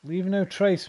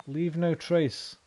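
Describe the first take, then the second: First: Said in the usual way. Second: "no" leaned on, every word spaced out slowly; stern slow repeat of "Leave no trace"; slow, stressed Leave no trace. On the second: Shown as a demonstration. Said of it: "Leave no trace, man".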